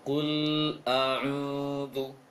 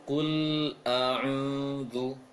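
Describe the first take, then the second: Both takes have the same delivery.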